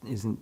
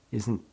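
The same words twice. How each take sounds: The two takes are said the same way.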